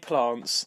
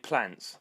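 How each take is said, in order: First: It is said in a southern English accent. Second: It is said in a Midlands English accent. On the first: "I'm from the south. We say plants" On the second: "here in the Midlands you say plants"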